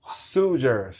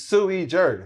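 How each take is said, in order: First: The first word is said as one syllable. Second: The first word is said as two syllables. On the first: The speaker calls it wrong. "I ain't know to throw the sue e" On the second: The speaker calls it right. "Is how you say it"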